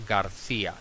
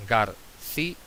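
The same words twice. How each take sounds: First: Said in the usual way. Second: "García" broken up as Gar-cí-a; syllable by syllable. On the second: Shown as a demonstration. Teacher showing the hiatus, "García" syllable by syllable. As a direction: separate the beats of "García", stressing cí. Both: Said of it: "cae el golpe de voz".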